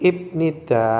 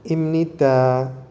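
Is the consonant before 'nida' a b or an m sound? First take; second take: b; m. First: It is said with a b before nida. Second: It is said with an m before nida. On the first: "Jadi ibnida itu ketika di, e, dilafalkan" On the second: "pengucapan atau pelafalannya dengan imnida"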